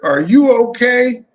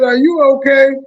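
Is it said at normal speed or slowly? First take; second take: slowly; normal speed. First: It is said slowly. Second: It is said at normal speed.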